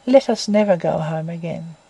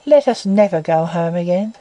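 First: Lower, softer, settled resolve; final quiet verdict, falling to rest; deep slow decision. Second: A touch of deep, measured resolve; mild resolute proposal, rising at the end; slow decision. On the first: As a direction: Stephen repeats his proposal, lower and quieter. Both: A narrator's reading. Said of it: "in a deep tone of slow decision".

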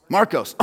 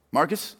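First: "Marcos" with a clear -os ending; corrected name. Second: "Marcus" said with a weak -us ending; mistaken name. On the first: Preacher correcting a volunteer's name, "Marcos" ending in -os. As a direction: say "Marcos", ending in a rounded -kose. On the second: Preacher guessing a volunteer's name, "Marcus" ending in -us. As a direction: say "Marcus", ending in -kus, as a tentative question. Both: Real, not acted. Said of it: "that's a B minus for me".

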